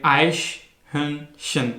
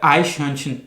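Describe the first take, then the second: First: आइश हंशन said very slowly, syllable by syllable; carefully divided आइश हंशन; slow, split into parts. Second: Said in the usual way. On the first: Shown as a demonstration. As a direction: break आइश हंशन apart, each piece drawn out. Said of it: "अब इसको अगर आप divide करें". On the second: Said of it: "वो लोगों से pronounce नहीं होता".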